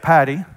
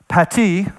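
First: It is said in an East Texas accent. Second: It is said with a careful Latin pronunciation. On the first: "in East Texas, we would say patty" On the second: "the Latin word for that is pati"

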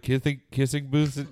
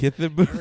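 First: The s sound is mostly clear, nearly lisped. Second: The s sound is lisped like th. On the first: "I almost had a lisp there" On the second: "You're going to say Kithin"

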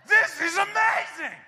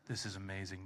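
First: It is said with lively, excited amazement. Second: It is read in a flat, unexcited tone. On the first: The event is astonishing and irresistible. The speaker calls it right. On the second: The event seems ordinary and unremarkable. The speaker calls it wrong. "you just like read it like this?"

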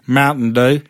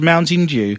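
First: It is said in an American accent. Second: It is said in a British English accent.

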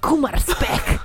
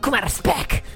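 First: It is said with cheerful enthusiasm. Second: It is said in an angry tone.

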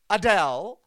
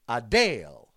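First: The last syllable rhymes with Dell. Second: The last syllable rhymes with Dale. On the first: The speaker calls it wrong. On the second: The speaker calls it right.

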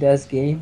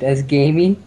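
First: The last word is said as one syllable. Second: The last word is said as two syllables. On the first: The speaker calls it right. "the Y is silent" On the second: The speaker calls it wrong. "they call it Dad's Gamey"

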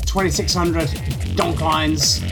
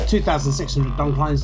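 First: It is said the American way. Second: It is said the British way. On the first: "whether you prefer the American" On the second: "or British way of saying it"

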